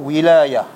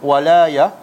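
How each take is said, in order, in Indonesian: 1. Vokal pertama adalah bunyi 'i' yang tinggi. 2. Vokal pertama adalah bunyi 'a' yang terbuka. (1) "yang kedua wilayah" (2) "Satu walayah"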